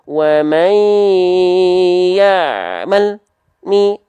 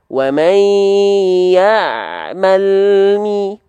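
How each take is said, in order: First: The l is cut off before the m. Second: The l runs straight into the m. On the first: The speaker calls it wrong. "dengan cara memutus suara ... contohnya begini" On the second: The speaker calls it right. "Jadi barengin antara turun lidah dengan huruf berikutnya"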